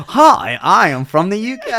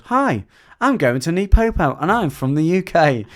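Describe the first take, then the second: First: Mock southern English accent, much higher and louder, breaking into laughter; redoing the trainer's southern English accent while giggling; laughing southern accent. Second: Higher and louder mock southern English accent. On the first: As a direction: try the southern English accent again but crack up laughing through it. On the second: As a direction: put on a southern English accent to imitate the trainer. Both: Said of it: "What accent is that?".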